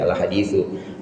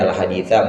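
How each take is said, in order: First: The word ends with a 'u' vowel. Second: The word ends with an 'a' vowel. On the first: This is the established hadith. "boleh dibaca al-hadithu" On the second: Read on or continue this hadith. "boleh dibaca al-haditha"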